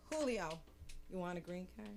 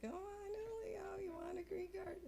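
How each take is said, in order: First: Said in the usual way. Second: Soft, very high teasing singsong; high coaxing voice. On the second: Acted. Woman tempting Julio with a green card, high soft coaxing. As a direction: dangle the offer in a tiny high voice. Coaxes Julio again in tiny voice.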